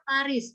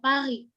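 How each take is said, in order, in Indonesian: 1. Huruf s di akhir kata "Paris" dibaca. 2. Huruf s di akhir kata "Paris" diam. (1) "Paris itu nggak pernah dibaca Paris" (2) "Paris ya Paris"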